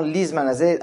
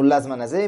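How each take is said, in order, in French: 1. La première voyelle est un son 'i'. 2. La première voyelle est un son 'a'. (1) "avec un chrik" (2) "on ne dit pas"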